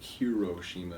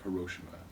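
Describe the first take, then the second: First: The second vowel is given its full length. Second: The second vowel is rushed through quickly. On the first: The speaker calls it wrong. "it wouldn't be like" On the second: The speaker calls it right. "you would speed through the second vowel, it'd be like"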